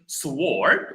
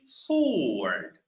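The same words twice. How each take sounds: First: A W sound is heard after the S. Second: No W sound is heard after the S. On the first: The speaker calls it wrong. "We don't say sword" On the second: The speaker calls it right. "we say sword. The W is silent"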